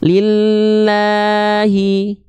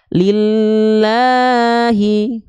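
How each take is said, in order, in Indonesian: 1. Vokal panjangnya ditahan dengan nada datar. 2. Vokal panjangnya diayun naik turun nadanya. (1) "Saya baca tidak ngayun bacaannya" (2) "Kalau pakai ayunan nada"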